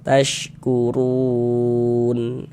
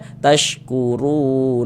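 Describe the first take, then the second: First: The word ends on the n sound. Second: The word ends with an added final vowel. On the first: The speaker calls it right. "Tapi disukunkan" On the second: The speaker calls it wrong. "Jangan dibaca tashkuruna. ... Oh jangan, salah"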